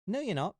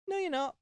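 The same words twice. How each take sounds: First: High squeaky contradiction; high stubborn mouse retort; defiant mouse. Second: Very high insistent squeak; very high stubborn mouse retort; shrill defiant mouse. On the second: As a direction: top the argument with a piercing squeak. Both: Acted. Mouse argues with lion.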